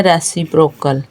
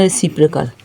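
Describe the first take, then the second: First: रेसिप्रोकल said wrongly as "res-si-PROKE-kal"; mispronounced reciprocal. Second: रेसिप्रोकल said as "re-SIP-ri-kal"; correct pronunciation of reciprocal. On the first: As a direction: say रेसिप्रोकल with a full "proke" syllable, as some misread it. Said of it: "कुछ लोग इस word को पढ़ते हैं". (रेसिप्रोकल का ग़लत उच्चारण, "रेस्सिप्रोक्कल", "प्रोक" पर ज़ोर) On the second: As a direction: say रेसिप्रोकल with a short, light "pri" in place of "proke". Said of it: "इसकी करेक्ट प्रोनाउंसिएशन है". (रेसिप्रोकल का सही उच्चारण, "रिसिप्रिकल", हल्का "प्रि") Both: Shown as a demonstration.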